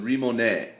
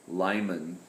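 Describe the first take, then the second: First: It begins with an R and ends in mone. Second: It begins with an L and ends in man. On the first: This is the proper Japanese reading. The speaker calls it right. "if you were going to pronounce it in proper Japanese" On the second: This is a personal habitual reading. The speaker calls it wrong. "I always say Lyman"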